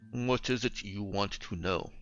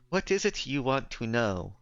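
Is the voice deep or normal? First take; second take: deep; normal. First: The voice is pitched very deep. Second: The voice is at a normal pitch. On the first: The speaker calls it wrong. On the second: The speaker calls it right.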